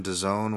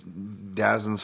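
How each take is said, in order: First: Dazone said as "duh-ZONE"; variant pronunciation. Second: Dazin's said to end in an unstressed "zin"; variant pronunciation. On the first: Podcaster offering another name for the service, dazone as "duh-ZONE". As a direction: say dazone with a long o, rhyming with zone. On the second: Podcaster unsure of the streaming service's name, Dazin's ending in "zin". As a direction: say Dazin's with a short last vowel, not "zone". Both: Shown as a demonstration. Tries variant names for DAZN.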